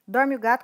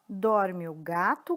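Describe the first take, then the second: First: It is said at a very fast pace. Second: It is said at a slow pace.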